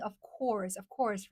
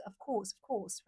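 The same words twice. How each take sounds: First: "of course" with a pronounced American R; "course" said rhotic, American style. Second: "of course" without the R; softer "course" with a long open vowel; British, no R. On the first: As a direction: sound the R in "course". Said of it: "I'm pretty good at pronouncing". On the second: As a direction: drop the R in "course", British style. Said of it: "back then when I learned English". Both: Shown as a demonstration.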